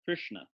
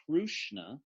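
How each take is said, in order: First: The r itself forms an in-between vowel. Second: A 'u' vowel follows the r. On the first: The speaker calls it right. "it's in between all three" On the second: The speaker calls it wrong. "it's not Krushna"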